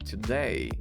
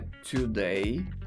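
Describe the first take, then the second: First: The first vowel is very short. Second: The first vowel is full, not reduced. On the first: The speaker calls it right. "o som dele é bem curtinho" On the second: The speaker calls it wrong. "Não é today"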